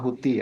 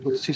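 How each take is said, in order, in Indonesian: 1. Konsonan di tengah adalah bunyi 't' biasa. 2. Konsonan di tengah adalah bunyi 'ts'.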